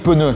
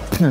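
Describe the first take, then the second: First: It is said as two syllables, added vowel. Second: It is said as one syllable, no added vowel. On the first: The tyre is fully inflated and ready to drive. The speaker calls it right. "tu as 3,5 bars, tu peux rouler" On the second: The tyre is leaking air and goes nowhere. The speaker calls it wrong. "Tu as de l'air qui s'échappe"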